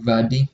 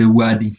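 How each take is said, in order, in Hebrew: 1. המילה מתחילה בצליל v. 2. המילה מתחילה בצליל w.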